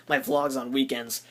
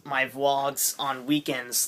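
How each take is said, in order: First: Said in the usual way. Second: Slow, oddly drawn out; weird slow delivery. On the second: Real, not acted. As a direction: stretch the words out strangely. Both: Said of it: "that was weird".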